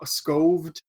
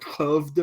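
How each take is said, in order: First: The initial S and K are both clearly pronounced. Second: The initial S is silent and the K is softened. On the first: The speaker calls it wrong. "the American would be like" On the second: The speaker calls it right. "the S is silent, the K is like pronounced like something else"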